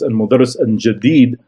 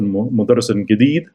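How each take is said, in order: First: The jim is said as a J sound. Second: The jim is said as a hard G sound. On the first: "where in Fusha it's" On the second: "in the Amiya, it's uh, المدرس الجديد"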